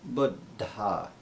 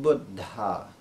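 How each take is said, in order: No difference in how they are said.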